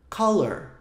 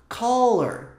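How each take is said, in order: Both takes have the same delivery.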